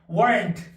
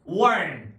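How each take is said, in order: First: The final t is pronounced strongly. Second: The final t is almost not pronounced. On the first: The speaker calls it wrong. "제가 좀 세게 발음해서" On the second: The speaker calls it right. "거의 t가 발음이 안 되게"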